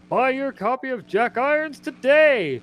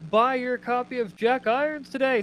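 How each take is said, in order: First: It is read in a booming announcer voice. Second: It is read in an ordinary speaking voice.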